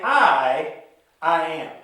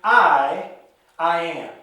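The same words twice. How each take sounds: First: "I" again stressed and set apart before "I am"; "I" repeated with a firm emphasis. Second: "I" hit hard and louder, then a pause before "I am"; the opening "I" punched and held apart; stress on I. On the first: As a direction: pause after a weighty "I". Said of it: "He's saying". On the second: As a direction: lean on "I" and hold it before "I am". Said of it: "Jesus is saying". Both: Shown as a demonstration.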